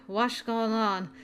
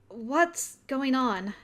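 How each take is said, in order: First: The words are mumbled and slurred. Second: The words are spoken clearly.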